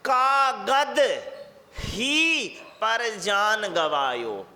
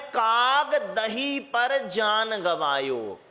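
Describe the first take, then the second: First: The break comes after kaagad, before hi. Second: The break comes after kaag, before dahi.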